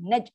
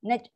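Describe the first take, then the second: Both takes have the same delivery.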